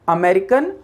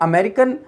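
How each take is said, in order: The two takes are said the same way.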